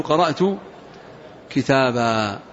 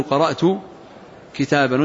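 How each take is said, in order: First: كتابا pronounced kitābā, long a at the pause with no nun; correct pausal form. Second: كتابا pronounced kitāban, nunation sounded at the pause; wrong pausal form with tanween. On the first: Teacher showing students the right way to pause on كتابا. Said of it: "وإنما تقول". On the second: Teacher showing students the wrong way to stop on كتابا. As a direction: end كتابا with a clear -an nun. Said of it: "ما تقول". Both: Shown as a demonstration.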